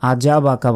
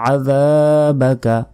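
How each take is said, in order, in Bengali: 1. দ্বিতীয় ব্যঞ্জনটি সাধারণ j ধ্বনি। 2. দ্বিতীয় ব্যঞ্জনটি dh, জিভ দাঁতের ফাঁকে। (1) "আজাবাকা বলা যাবে না" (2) "জিহ্বা বের করে"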